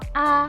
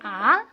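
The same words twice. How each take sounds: First: It is said lightly and softly, unstressed. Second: The pitch rises from lower to higher. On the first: "nada netral itu bacanya ringan dan pelan" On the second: "Nada kedua bacanya naik"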